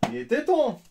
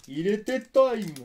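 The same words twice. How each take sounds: First: High, loud thrilled shout; excited cheer. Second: Slow, high, loud drawn-out cheer; slow excited drawl. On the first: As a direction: shout it in relief. Cheers at the rare card. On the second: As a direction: stretch out every word. Slow, drawn-out joking variant. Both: Real, not acted.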